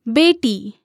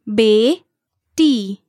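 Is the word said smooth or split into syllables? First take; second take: smooth; split. First: The word is said smoothly at normal speed. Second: The word is said slowly, one syllable at a time. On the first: "one time at natural native speed" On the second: "syllable by syllable"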